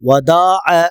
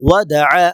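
First: The vowels are stretched out too long. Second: The vowels are kept short and crisp. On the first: The speaker calls it wrong. "அதிகமாக இழுக்கக்கூடாது, வதஅ வதஅ அப்படிலாம் சொல்லக்கூடாது" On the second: The speaker calls it right. "மாறாக வதஅ"

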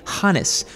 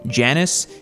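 First: The word begins with a breathy H sound. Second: The word begins with an English J sound.

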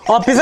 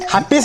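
First: The word begins with a vowel sound. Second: The word begins with an 'h' sound. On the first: The speaker calls it right. "ऑफिस असतंय ती" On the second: The speaker calls it wrong. "हापीस नाही"

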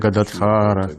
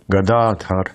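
First: The name ends with an added final vowel. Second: The name ends on a consonant sound. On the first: The speaker calls it wrong. "Якось це ім'я змінюється, через мелодію чи щось інше" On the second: The speaker calls it right. "ні, Гададхар"

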